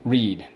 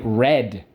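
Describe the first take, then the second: First: The vowel is long, like in 'bead'. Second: The vowel is short, like in 'bed'. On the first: It is the present tense. "You love to read" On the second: It is the past tense. "Now we're going to put it in the past, but we don't say readed. We say read"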